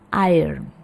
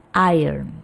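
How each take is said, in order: Both takes have the same delivery.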